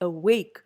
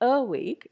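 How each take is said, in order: First: The stress is on the second syllable. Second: The stress is on the first syllable. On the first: The speaker calls it right. "it is awake" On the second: The speaker calls it wrong. "You don't say awake"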